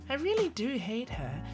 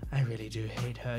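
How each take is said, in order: First: It is said in a high, cutesy voice. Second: It is said in a lower, harsher voice. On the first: The character is only letting go a little. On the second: The character fully drops her cute act.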